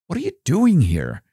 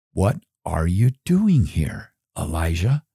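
First: "doing" lifted high, then falling away; stress on DOING. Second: Lightly voiced low, measured divine question; voice of the Lord. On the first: Acted. God pressing Elijah in the cave, pointed stress on "doing". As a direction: ask it again pointedly, pitch jumping on "doing". Repeats God's question to Elijah. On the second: God questioning Elijah in the cave, lightly voiced low question. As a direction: ask it low and deliberate, lightly in character. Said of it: "the word of the Lord came to him".

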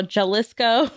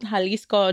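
First: Jalisco said the native way, chuh-lis-koh; correct Jalisco. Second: Jalisco said with an h sound, hah-LEES-coh; mispronounced Jalisco. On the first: Shown as a demonstration. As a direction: Jalisco with a ch sound, rising at the end. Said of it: "but be nice, guys". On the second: Retold or imitated. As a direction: Jalisco as hah-lis-co, a non-native reading. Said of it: "the U F O researcher who compiled the videos called".

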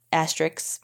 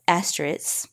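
First: "asterisks" with the k sounded, "ASS-triks"; quiet second try at "asterisks", k restored before the final s; corrected asterisks. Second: "asterisks" said as "ASS-trits"; "asterisks" slurred to two syllables, ending in "ts" without the k; mispronounced asterisks. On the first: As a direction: say "asterisks" softly, ending in "-iks". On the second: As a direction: drop the middle syllable of "asterisks" and end it in "-its". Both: Real, not acted. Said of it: "that's not how you say that word".

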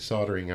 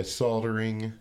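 First: Soldering said as "SOD-er-ing"; silent L. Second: Soldering with the L sounded; L pronounced. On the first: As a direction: drop the L in soldering. Corrects word after being questioned. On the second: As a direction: say soldering as "SOL-der-ing". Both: Real, not acted.

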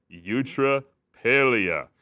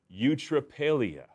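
First: Put-on very slow, loud eutrapelia, drawn out for children to repeat; broad singsong kids theatre. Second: Eutrapelia said slowly, syllable by syllable: yoo-tra-PAY-lee-a; slow careful eutrapelia. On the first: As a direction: sing out eutrapelia like a kids' show host. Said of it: "can you say that with me, boys and girls?". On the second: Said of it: "can you say that with me". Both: Shown as a demonstration.

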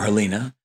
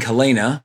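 First: Helena said as huh-LEE-nuh. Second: Helena said as huh-LAY-nuh. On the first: Offering another reading of the title, Helena as huh-LEE-nuh. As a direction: say Helena with a long EE in the middle. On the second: Reading out the film title, Helena as huh-LAY-nuh. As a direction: say Helena with a long AY in the middle. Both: Shown as a demonstration. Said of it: "depending on where you put the emphasis".

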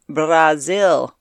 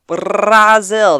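First: Said in the usual way. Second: "Brazil" loud and punched with a rolled R; showy pronunciation. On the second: Shown as a demonstration. Podcast host introducing a guest's country, showy rolled "Brazil". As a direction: roll the R hard in "Brazil", louder and higher. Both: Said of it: "That's how I wanted to say that".

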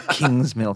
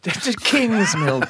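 First: Name said through a laugh. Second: Slow, drawn-out put-on voice on the name; character voice. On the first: Real, not acted. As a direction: drop the act and laugh the name. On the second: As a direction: stretch the name out in a mock character voice. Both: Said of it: "you have to put on your character voice also".

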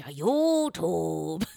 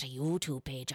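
First: "YouTube" stretched very slowly with long oo vowels; drawn-out YouTube. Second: Said in the usual way. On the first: Shown as a demonstration. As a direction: draw out both vowels of "YouTube". Repeats word in exaggerated accent.

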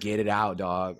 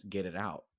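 First: Firmer, out-loud repeat of the order; insistent urging. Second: Low, soft, secretive order; hushed urging. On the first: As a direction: press them, no longer hushed. Friend insisting a second time. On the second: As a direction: quietly press them to show it. Secretive friend urging in public. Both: Retold or imitated.

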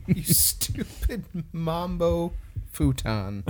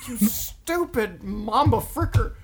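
First: Goofy voice. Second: Slow, high cartoon insult; goofy insult voice. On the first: Pretend. Softer goofy variant. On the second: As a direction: drag it out like a cartoon.

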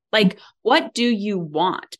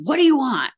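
First: Said in the usual way. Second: Intimidating question. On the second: Shown as a demonstration. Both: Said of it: "it can be a very intimidating question".

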